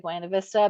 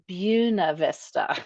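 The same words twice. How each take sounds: First: It is said the non-local way. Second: It is said the local way. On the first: This is how an outsider says it. "I say Buena Vista" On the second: This is how locals say it. "if you're like a real local, they say Buena Vista"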